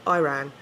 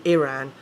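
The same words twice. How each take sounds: First: "Iran" as EYE-ran; long "eye" opening on "Iran"; American Iran. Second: "Iran" as ih-RAN; English "Iran" with a short first I; British Iran. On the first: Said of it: "instead of Iran and Iraq". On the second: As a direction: say "Iran" starting ih, not eye. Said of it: "like we do in England". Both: Shown as a demonstration.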